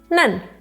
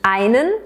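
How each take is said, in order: First: The article is reduced to one short syllable. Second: The article is said in full with two syllables.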